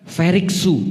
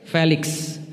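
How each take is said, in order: First: The L becomes R and vowels are added. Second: The name is said with Indonesian pronunciation. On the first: "orang Jepang enggak bisa ngomong L" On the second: "Nama saya siapa?"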